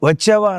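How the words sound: The word begins with a v sound. This is the form used elsewhere. "వచ్చావా అనరు"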